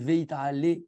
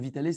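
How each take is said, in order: First: The first syllable keeps a full 'vay' sound. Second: The first vowel is merged into a short 'vee'. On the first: The speaker calls it right. "c'est Veit ale" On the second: The speaker calls it wrong. "c'est pas vitale"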